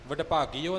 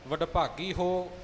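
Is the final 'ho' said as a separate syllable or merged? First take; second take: merged; separate. First: The ending is merged into a plain 'o' sound. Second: The ending is a separate 'ho' with audible h. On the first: The speaker calls it wrong. "ਵਡਭਾਗੀਓ ਨਹੀਂ ਹੈ" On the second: The speaker calls it right. "ਵਡਭਾਗੀ ਹੋ ਇਉਂ ਹਾਹੇ ਦਾ ਉਚਾਰਨ ਕਰਨਾ ਹੈ"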